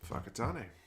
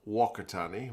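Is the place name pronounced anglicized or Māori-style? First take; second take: Māori-style; anglicized. First: The name is said with a Māori-style pronunciation. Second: The name is said with an anglicized pronunciation.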